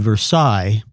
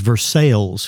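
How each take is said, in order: First: It is pronounced the French way. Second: It is pronounced the local Kentucky way. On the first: This is the name of the place in France. "what would be Versailles in France" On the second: This is the name of the Kentucky town. "is Versailles here"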